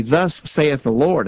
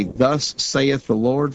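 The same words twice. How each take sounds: First: "Thus" stressed and slightly drawn, moderately slow; a lighter echo of the solemn intoning; emphatic scripture quote. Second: Slow, drawn-out Thus saith the Lord with weight on "Thus"; "Thus" stretched and hit hard, the rest slow and solemn; solemn scripture quote. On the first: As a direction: repeat the formula firmly, a bit slower. Repeating scripture formula emphatically. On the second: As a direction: intone it like King James scripture, very slowly. Quoting scripture formula solemnly. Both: Shown as a demonstration.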